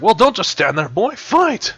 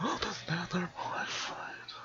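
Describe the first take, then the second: First: High loud battle cry; shouting. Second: Hushed whispered command; whispering. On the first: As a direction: yell it to rally him. Creature urges fighter, repeated whispered. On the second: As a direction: breathe it out in a whisper. Same line redone whispered. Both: Acted.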